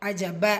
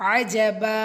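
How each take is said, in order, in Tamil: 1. கடைசி உயிர குறுக்குங்க. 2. கடைசி உயிர நீட்டுங்க. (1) "அஜப அப்படி முடிக்க மாட்டேங்கிறோம்" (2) "அஜபா அப்படி"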